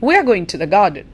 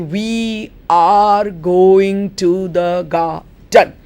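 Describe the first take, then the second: First: The word 'are' has a reduced vowel. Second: The word 'are' has a full vowel. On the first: The speaker calls it right. "How do I say it?" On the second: The speaker calls it wrong. "I do not say"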